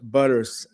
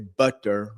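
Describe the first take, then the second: First: The middle consonant is a soft D sound. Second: The middle consonant is a crisp T sound. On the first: The speaker calls it right. "butter's got a D sound, D like David" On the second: The speaker calls it wrong. "you don't really say butter"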